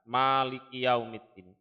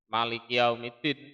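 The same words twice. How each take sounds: First: The first syllable has a long vowel. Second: The first syllable has a short vowel. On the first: God is the owner of the Day of Judgement. "ma-nya itu panjang, dibaca panjang" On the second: God is the king of the Day of Judgement. "Kalau dibaca pendek"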